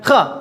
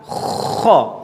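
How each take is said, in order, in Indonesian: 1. Bunyi kh diucapkan tanpa serak tenggorokan yang terdengar. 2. Bunyi kh diucapkan dengan serak tenggorokan yang kuat. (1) "bukan seperti itu" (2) "harus ada ngoroknya"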